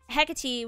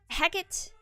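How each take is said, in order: First: The name is pronounced the Anglo way. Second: The name is pronounced the Shakespearean way. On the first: "which is the Anglo version" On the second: "which is the Shakespearean uh, Shakespearean version"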